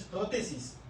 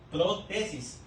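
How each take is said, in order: First: "prótesis" quick and joined, stressed on PRÓ; PRÓtesis pronunciation. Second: "protesis" separated as pro–TESIS; pro-TESIS pronunciation. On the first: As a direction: say "prótesis" as one quick word, first syllable accented. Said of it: "Escuchen el, la pronunciación". ("prótesis" rápido y seguido, acento en PRÓ) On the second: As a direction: say "protesis" in two parts, weight on TE. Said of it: "Se escucha diferente". ("protesis" separado: pro… TESIS) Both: Shown as a demonstration.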